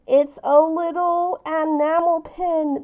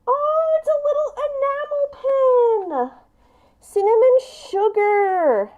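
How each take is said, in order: First: Said in the usual way. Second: High, thrilled discovery of "it's a little enamel pin"; excited squeal. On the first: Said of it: "ugh, I'm so sorry. This lighting is terrible". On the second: Real, not acted. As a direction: gasp with delight at the pin. Opening last gift, a pin.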